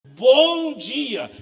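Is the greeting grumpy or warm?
warm. It is said in a warm, sincere way.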